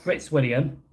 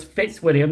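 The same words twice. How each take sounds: First: Fritz William with an R after the F; the slip Fritz William, R slipped in; mistaken name, added R. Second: Fitzwilliam with no R after the F; correcting to Fitzwilliam, R left out; correct name, no R. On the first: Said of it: "no, it's Fitzwilliam". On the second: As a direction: say "Fitzwilliam", starting plain "Fits". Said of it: "not Fritz William". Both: Shown as a demonstration.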